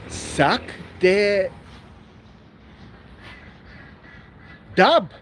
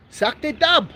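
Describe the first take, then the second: First: Carefully sounding out sack de dub; Afrikaans word. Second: Sack de dub said quickly in one go; Afrikaans word. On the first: Asked what was that again, repeats the Afrikaans word slowly. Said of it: "What, what was that again?". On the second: Confirming the Afrikaans word to the viewer, brisk. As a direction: run sack de dub together. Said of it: "Yes, that's it". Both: Shown as a demonstration.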